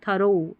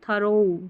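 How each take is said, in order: No difference in how they are said.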